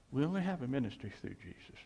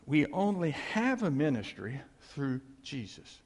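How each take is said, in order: First: Fast, even restatement; brisk, understated repetition; quick repeat. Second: Measured, with HAVE leaned on; deliberate phrasing, weight on "have"; emphatic statement. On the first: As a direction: run through it briskly without punching "have". Quicker softer repeat of lesson. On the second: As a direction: spell out the lesson, stressing "have". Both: Real, not acted.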